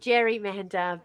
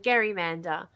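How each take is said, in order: First: It begins with a J sound. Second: It begins with a hard G sound. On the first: This is how it is said today. "because we pronounce it Jerry, not Gary" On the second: This is the original name-based form. "his name was Gary"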